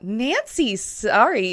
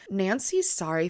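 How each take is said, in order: First: The voice is pitched high. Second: The voice is pitched in the middle range. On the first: The speaker calls it wrong. "not Nancy's sorry" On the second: The speaker calls it right. "a little bit more mid-tone in the vocal range"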